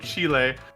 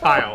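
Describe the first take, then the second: First: The word is not said like 'child'. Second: The word is said like 'child'. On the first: The speaker calls it wrong. "people mispronounce it" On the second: The speaker calls it right. "no, it's child"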